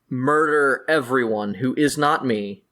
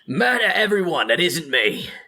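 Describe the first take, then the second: First: It is said in the speaker's normal voice. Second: It is said in a put-on character voice.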